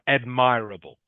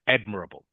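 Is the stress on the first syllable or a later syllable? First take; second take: later; first. First: The stress is not on the first syllable. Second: The stress is on the first syllable. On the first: The speaker calls it wrong. "Not not admirable" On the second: The speaker calls it right. "the stress is on the first syllable"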